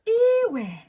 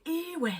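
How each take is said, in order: First: "Iwe" thrown out high and loud as a teasing joke; a much higher, louder mock-outraged "Iwe"; playful jokey "Iwe" aimed at a friend; joking exclamation. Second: "Iwe" called out sharply as an exclamation, like "Oi"; "Iwe" as a quick shout of Oi. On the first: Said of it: "use it as kind of like a joke". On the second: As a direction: snap "Iwe" out to get someone's attention. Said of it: "you say it a lot as an exclamation". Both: Shown as a demonstration.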